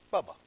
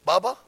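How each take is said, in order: First: Said in the usual way. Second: «Bubba?» asked with a loud rising call; questioning call. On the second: Shown as a demonstration.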